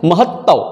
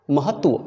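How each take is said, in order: First: महत्व said as mahattav, without the final tva; wrong pronunciation. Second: महत्व as mahat-va, softly, v after the t; correct pronunciation. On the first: Teacher rejects a wrong word, महत्व said as mahattav. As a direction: turn the ending of महत्व into double-t tav. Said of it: "नहीं". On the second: Teacher gives the right word, महत्व as mahat-va. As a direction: softly end महत्व on a clear tva. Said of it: "ये सही उच्चारण है". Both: Shown as a demonstration.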